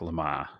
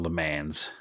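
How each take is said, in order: First: The name is said in a non-American way. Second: The name is said in an American way.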